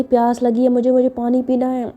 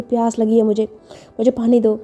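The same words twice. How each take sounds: First: Lightly raised, insistent repeat of the demand; a touch of a shout, pressing for water; mild mock yell. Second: Lightly raised, demanding call for water; half-hearted shout at her companion in the car; mild mock yell. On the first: Mannat repeating herself to Piya in the car, a mild mock yell. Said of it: "इतना चिल्ला क्यों रही हैं". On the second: Mannat in the car, calling out to Piya for water, a mild mock yell. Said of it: "वो चिल्लाने लग जाती". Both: A narrator's reading.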